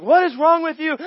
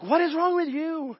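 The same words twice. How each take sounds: First: Higher and louder, fed-up owner; exasperated. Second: Holy Spirit's question. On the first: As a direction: vent at the stubborn dog. His own frustration at dog. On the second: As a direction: turn the question gently back on him. Holy Spirit speaking to him. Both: Retold or imitated.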